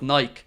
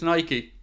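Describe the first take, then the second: First: The name does not end with a 'key' sound. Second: The name ends with a 'key' sound. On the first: The speaker calls it wrong. "instead of Nike" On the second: The speaker calls it right. "it's Nike"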